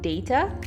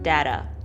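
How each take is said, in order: First: The word is said in a British way. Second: The word is said in an American way. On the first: "the British call them data" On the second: "the Americans call them data"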